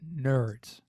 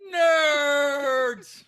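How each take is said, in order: First: The word is said at normal volume. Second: The word is yelled loudly. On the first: "I don't think you said it right" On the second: "Don't yell nerds at somebody"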